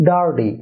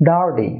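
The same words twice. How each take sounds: Both takes have the same delivery.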